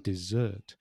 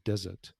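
First: The stress is on the second syllable. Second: The stress is on the first syllable. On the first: It names a sweet course after a meal. The speaker calls it right. "no, it's dessert" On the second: It names a dry sandy region. The speaker calls it wrong. "Most Spanish people very often will say desert"

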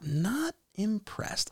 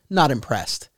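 First: It is said with a showy, dramatic flair. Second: It is said plainly, without any flair. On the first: "there was that flair to it" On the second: "he could have said, like"

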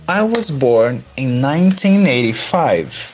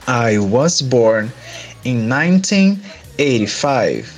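First: It is said at normal speed. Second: It is said slowly.

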